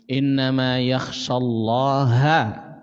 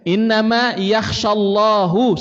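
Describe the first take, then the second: First: The last word ends with an 'a' vowel. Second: The last word ends with a 'u' vowel. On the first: It is God who is feared. The speaker calls it right. "bacanya fathah" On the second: God is the one who fears. The speaker calls it wrong. "kalau dibacanya dhammah"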